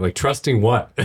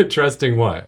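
First: Said in the usual way. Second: Laughing. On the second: Real, not acted. Host echoes the guest's question, laughing. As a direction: repeat it with a real laugh, a touch higher.

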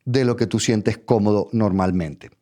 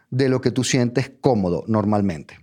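Both takes have the same delivery.

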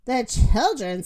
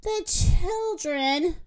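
First: Dismissive, quicker and falling; scornful echo. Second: High, slow, drawn-out appeal; pleading. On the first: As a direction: throw the words back with scorn. Rooster scornfully echoes Moo. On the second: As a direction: stretch it out to win sympathy. Moo pleads for the children. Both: A narrator's reading.

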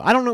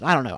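First: "know" lifted high and loud with a rise; playful retort. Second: Said in the usual way. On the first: Real, not acted. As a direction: toss "I don't know" back higher and louder, rising at the end.

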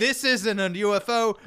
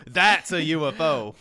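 First: "isn't" punched higher and louder, slowly; stress on ISN'T. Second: "That's" punched louder, slow and certain; stress on THAT'S. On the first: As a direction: lean hard on "isn't". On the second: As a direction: hit "That's" hard. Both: Acted.

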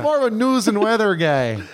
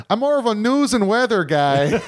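First: Folksy Midwest repeat of the line; mock Midwest accent. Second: Light Midwest twang, a bit higher; mock Midwest accent. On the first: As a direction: savor the Midwest lilt again. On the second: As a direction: imitate a folksy Midwest husband. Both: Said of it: "that real Midwest".

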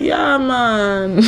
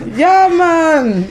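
First: Put-on a first, lightly tried Jamaican-style Rasta accent on Yeah, man; hint of a Rasta lilt, held back. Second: Hammed-up Jamaican-style Rasta Yeah, man, higher and louder; exaggerated Rasta accent. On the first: Telling friends about a Rasta woman, a tentative Jamaican-style Rasta accent. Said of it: "without faking the accent". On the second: Imitating a Rasta woman for friends, an overdone Jamaican-style Rasta accent. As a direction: go big on the Rasta accent, laughing at yourself. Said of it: "it's not correct".

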